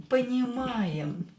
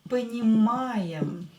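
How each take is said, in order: The two takes are said the same way.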